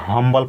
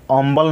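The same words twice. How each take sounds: First: "हम्बल" with an audible H at the front; pronounced H. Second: "अम्बल" starting on the vowel, H left off; wrong dropped H. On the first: Teacher giving students the correct reading, "हम्बल" with H sounded. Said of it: "हम्बल पढ़ेंगे". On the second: Teacher warning students off the misreading, "अम्बल" with no H. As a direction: leave the H out of "अम्बल". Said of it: "अम्बल नहीं पढ़ेंगे". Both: Shown as a demonstration.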